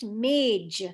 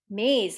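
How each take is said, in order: First: The final consonant is a j sound. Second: The final consonant is a z sound. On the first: "in conversational Hindi, it's pronounced mage" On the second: "the actual correct pronunciation is maze"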